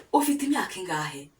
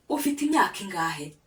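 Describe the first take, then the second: No difference in how they are said.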